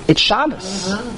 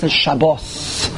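First: It is said with a Yiddish pronunciation. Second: It is said with a Hebrew pronunciation. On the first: "But in Yiddish, it's Shabbos" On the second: "It's not Shabbos, it's Shabbos"

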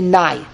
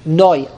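First: The vowel is pronounced like 'eye'. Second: The vowel is pronounced like 'oy'. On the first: "How do the Sfaradim pronounce Hashem's name? Every Komat Zapatach. They say Nai"

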